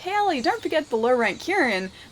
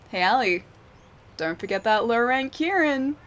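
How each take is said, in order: First: It is said plainly and sincerely. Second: It is said in a sly, sarcastic way.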